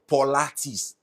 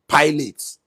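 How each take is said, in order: First: The first syllable has an 'aw' vowel. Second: The first syllable has no 'aw' vowel. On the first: Other people say it this way. "There is no U there. There is no O there. So where did you come with that pronunciation?" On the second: The speaker says it this way as an African man. "as an African man that I am, I said pilots"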